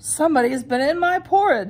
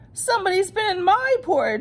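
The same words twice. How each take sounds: First: It is said in Papa Bear's voice. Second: It is said in Baby Bear's voice.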